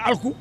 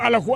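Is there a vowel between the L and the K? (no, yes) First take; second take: no; yes. First: The l and k are said together without a vowel. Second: An extra vowel is inserted between l and k. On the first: The speaker calls it right. "à la place de Alku" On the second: The speaker calls it wrong. "vous ne parlez pas bien Wolof"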